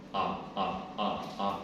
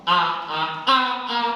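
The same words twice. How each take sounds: First: Low, short repeated "ah"; deep-pitched voice drill on "ah"; low vocal exercise. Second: Loud "ah" climbing high; rising high-pitched voice drill on "ah"; high vocal exercise. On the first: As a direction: sound each "ah" down in the deep register. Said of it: "teman-teman harus latihan". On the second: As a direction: push each "ah" higher and louder. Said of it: "Latihan tuh". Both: Shown as a demonstration.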